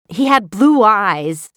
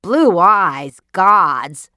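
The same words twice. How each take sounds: First: Slow, louder, leaning on blue; wife confiding a strange detail; tentative wonder. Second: Louder incredulous cry; husband scoffing at his wife's dream, loud; cried out. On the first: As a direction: savor the word blue, slowly. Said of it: "she tried the words". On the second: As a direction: throw the words back at her in disbelief. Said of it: "cried Mister K". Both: Acted.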